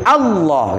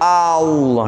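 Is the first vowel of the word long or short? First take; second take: short; long. First: The first vowel is kept short. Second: The first vowel is drawn out long. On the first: It states a fact. The speaker calls it right. "Harus Allah gitu, dipendekkan" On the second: It turns the phrase into a question. The speaker calls it wrong. "nah dipanjangkan tidak boleh"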